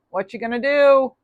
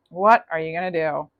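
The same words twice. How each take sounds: First: Higher pitch, rising on "do"; teasing question. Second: Said in the usual way. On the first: Shown as a demonstration. Reader teasing Libra about a returning ex, "do" lifted high. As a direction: draw "do" upward, playfully.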